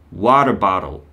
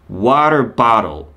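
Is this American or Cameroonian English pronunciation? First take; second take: American; American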